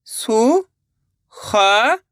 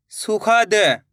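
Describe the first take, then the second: First: सुखद drawn out, syllables apart. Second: Said in the usual way. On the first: Shown as a demonstration. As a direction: sound out सुखद slowly in pieces. (सुखद को एक-एक अक्षर अलग करके) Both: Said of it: "एक अक्षर का उच्चारण करके".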